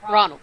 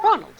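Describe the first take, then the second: First: Said in the usual way. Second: High, loud call of "Ronald"; acted exclamation of a name. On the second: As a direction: act her out, pitched up and louder. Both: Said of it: "She's like".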